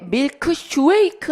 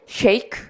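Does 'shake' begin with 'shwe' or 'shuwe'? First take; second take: shuwe; shwe. First: Shake begins with an extra 'shu' sound. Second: Shake begins with a single 'shwe' sound. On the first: The speaker calls it wrong. "슈웨이크 아니고" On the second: The speaker calls it right.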